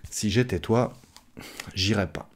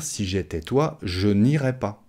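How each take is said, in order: First: "j'irais pas" contracted, n' dropped; spoken French. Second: "je n'irais pas" with je and n' sounded; correct full form. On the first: Teacher advises as a friend, casual spoken contraction. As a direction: say "j'irais pas" as everyday speech. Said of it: "à l'oral, on va dire". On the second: Teacher gives what one should say, fully pronounced. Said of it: "Alors qu'on devrait dire". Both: Shown as a demonstration.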